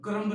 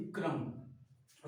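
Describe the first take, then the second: First: क्रम्ब loud, with a released b; B sounded in क्रम्ब. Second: क्रम्ब drawn out as "krummm", lower and softer; silent B in क्रम्ब. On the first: Teacher rejecting the misreading, final b pronounced loudly. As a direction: say क्रम्ब wrongly, punching the final b. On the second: Teacher correcting the reading, final b silent. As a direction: end क्रम्ब slowly on m, no b. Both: Shown as a demonstration. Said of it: "क्रम्ब नहीं".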